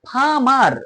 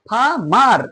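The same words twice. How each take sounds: No difference in how they are said.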